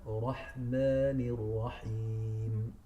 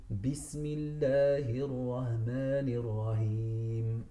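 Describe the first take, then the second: First: "Rahmanir Rahim" very slow, throat ha; correct throat ha. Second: "Rahmanir Rahim" with a plain English h; slow Bismillah using a plain h, to show the mistake; wrong plain h. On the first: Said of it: "It's Rahman". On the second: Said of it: "they go rather for the ha". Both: Shown as a demonstration.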